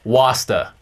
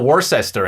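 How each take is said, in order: First: It is said in a Boston accent. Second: It is said in a general American accent. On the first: "then we got to do it in a Boston accent" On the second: "let's go American with this one and just go Worcester"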